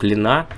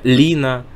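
First: The stress is on the second syllable. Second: The stress is on the first syllable. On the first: The speaker calls it wrong. "говорить нельзя" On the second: The speaker calls it right. "ударение на первый слог"

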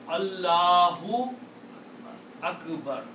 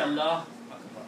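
First: The vowel u is pronounced after Allah. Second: The vowel after Allah is dropped. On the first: The speaker calls it right. "So you have pronounced the correct word here" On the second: The speaker calls it wrong. "You cannot say Allah Akbar"

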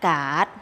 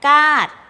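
First: The syllable is said with a rising tone. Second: The syllable is said with a falling tone. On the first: "ไม้จัตวา" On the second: "ไม้โท"

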